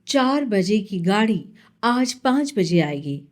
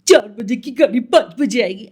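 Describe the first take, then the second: First: It is read in a smooth, even announcer rhythm. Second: It is said in an exaggerated cartoon character voice. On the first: This suits a plain voice-over reading. "आप उसको इस लय में बोलेंगे" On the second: This suits animation work. "जहाँ पे आप cartoon voice बोलो"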